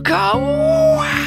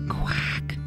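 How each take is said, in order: First: It is said loudly. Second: It is said quietly.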